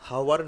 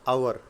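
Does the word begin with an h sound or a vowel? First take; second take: h sound; vowel. First: The word starts with an h sound. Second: The word starts directly with a vowel. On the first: The speaker calls it wrong. "हावर बोलोगे तो वो pronunciation गलत है" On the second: The speaker calls it right. "एच silent है"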